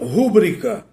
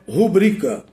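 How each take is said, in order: First: The stress falls on the first syllable. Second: The stress falls on the second syllable. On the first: The speaker calls it wrong. "muita gente pronuncia rúbrica, mas na verdade é uma silabada" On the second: The speaker calls it right. "a forma correta é rubrica"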